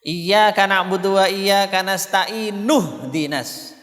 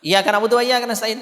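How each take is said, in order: First: Slow chant, "nasta'in" linked into "nuhdinas"; joined recitation. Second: "Iyyaka" said with a short single y; missing tasydid. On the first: Teacher showing how to connect verses, slow linked "nasta'in, nuhdinas". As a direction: draw out "nasta'in, nuhdinas" with the linking nu. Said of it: "Begitu bacanya kalau mau sambung". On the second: Teacher showing an invalid Fatihah reading, "Iyyaka" without its doubled y. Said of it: "Nah, hilang". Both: Shown as a demonstration.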